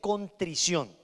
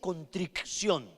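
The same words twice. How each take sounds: First: No k sound comes before the final syllable. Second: A k sound comes before the final syllable. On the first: The speaker calls it right. "se dice contrición" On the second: The speaker calls it wrong. "no se dice contrición"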